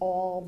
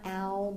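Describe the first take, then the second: First: The vowel is said like the 'aw' sound. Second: The vowel is said like the 'ah' sound. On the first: The speaker calls it right. "It's all" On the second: The speaker calls it wrong. "It's not ow"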